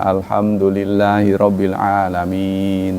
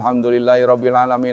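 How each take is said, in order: First: It is recited at a normal, unhurried pace. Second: It is recited very fast, without pausing.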